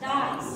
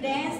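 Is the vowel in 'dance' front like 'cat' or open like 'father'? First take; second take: father; cat. First: The vowel is open, like in father. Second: The vowel is front, like in cat. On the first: The speaker calls it right. "ড্যান্স না ডান্স" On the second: The speaker calls it wrong. "অনেকেই দেখবা আমাদের বলে ড্যান্স"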